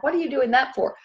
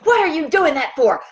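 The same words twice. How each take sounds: First: It is said in a calm, friendly tone. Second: It is yelled in a hateful tone. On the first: The speaker is simply asking. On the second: The speaker is attacking the listener.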